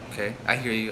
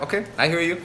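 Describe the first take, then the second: First: The voice is warm, caring and unhurried. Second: The voice is hurried and impatient. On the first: The caller genuinely wants to help. The speaker calls it right. "my tone is like caring. It's loving" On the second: The caller mainly wants the money. The speaker calls it wrong. "I'm kind of trying to rush through because I really want it"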